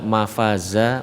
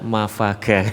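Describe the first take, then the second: First: The final syllable begins with a z sound. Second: The final syllable begins with a g sound. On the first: The speaker calls it right. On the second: The speaker calls it wrong.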